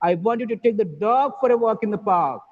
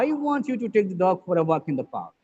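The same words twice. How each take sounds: First: The stress falls on the word dog. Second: The stress falls on the word I. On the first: The dog, not another animal, should go. "the emphasis is on the word dog" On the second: The speaker, not somebody else, wants it. "here, the stress is on I"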